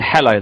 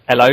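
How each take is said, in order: First: The h sound at the start is pronounced. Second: The h sound at the start is dropped. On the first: The speaker calls it right. "instead of saying hello" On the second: The speaker calls it wrong. "people don't use the letter. they go hello"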